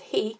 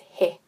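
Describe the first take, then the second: First: The vowel is an English-style long ee sound. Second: The vowel is a short eh sound. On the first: The speaker calls it wrong. "the kupu that we read in English as he" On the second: The speaker calls it right. "it's pronounced as he"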